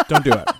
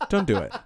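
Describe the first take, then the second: First: Loud, urgent don't; loud plea. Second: Laughing through the words; laughing plea. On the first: Begging the co-host to drop it, loud plea. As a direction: beg him loudly to stop. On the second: Laughing at the co-host's teasing, giggly plea. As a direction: plead while cracking up. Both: Real, not acted.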